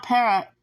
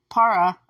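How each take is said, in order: First: Para pronounced PAIR-uh; alternate pronunciation. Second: Para pronounced PAH-ruh; alternate pronunciation. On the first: Vlogger unsure of the app's name, Para as PAIR-uh. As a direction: give Para an "eh" vowel up front, like PAIR-uh. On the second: Vlogger correcting the app's name for viewers, Para as PAH-ruh. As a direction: give Para a broad "ah" up front, like PAH-ruh. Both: Shown as a demonstration. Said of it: "if that's how you say it".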